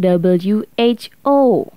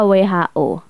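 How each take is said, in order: First: The letters are named the English way. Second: The letters are named the Indonesian way. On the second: "Itu singkatan Inggris tapi tetap dibaca"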